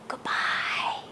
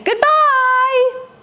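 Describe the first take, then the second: First: It is said quietly. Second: It is said loudly.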